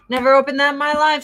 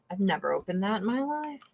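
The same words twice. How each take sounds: First: Higher, louder and fast; emphatic repeat. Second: Said in the usual way. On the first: Real, not acted. Admitting to viewers she never used the eye balm, emphatic. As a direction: blurt it again with mock disbelief.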